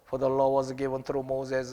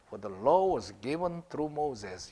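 First: It is read flatly without a clear beat. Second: It is read with a clear rhythmic beat. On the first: The speaker calls it wrong. "이거를 그냥 읽으라고 ... 이렇게 하면 안 돼요" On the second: The speaker calls it right. "요게 제대로 된 발음이라니까"

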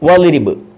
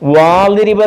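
First: The first vowel is kept short. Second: The first vowel is drawn out long. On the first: The speaker calls it right. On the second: The speaker calls it wrong. "അങ്ങനെ വായിക്കത്തില്ല"

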